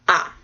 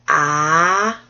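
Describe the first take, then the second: First: The syllable is short with no pitch movement. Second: The pitch rises from middle to high. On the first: "the last one is just ah. And it's short" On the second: "another one that goes up"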